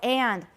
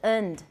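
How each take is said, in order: First: The word is said in its full form. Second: The word is said in its reduced form. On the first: The word is being emphasized. "强调的时候" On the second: The word is unstressed. "the weak form is"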